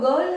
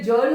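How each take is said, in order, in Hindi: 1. शब्द की शुरुआत कठोर g की ध्वनि से होती है। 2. शब्द की शुरुआत j की ध्वनि से होती है। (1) "लेकिन ये तो गर्ल है" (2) "रूल तो कहता है कि गर्ल की जगह जर्ल होना चाहिए था"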